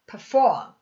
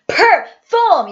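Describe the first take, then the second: First: The p is only mouthed, barely sounded. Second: The p is voiced loudly and strongly. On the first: The speaker calls it right. "입 모양만 해줍니다" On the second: The speaker calls it wrong. "이렇게 크게 소리를 내지 않고요"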